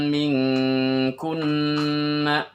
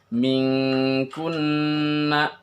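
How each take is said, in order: Both takes have the same delivery.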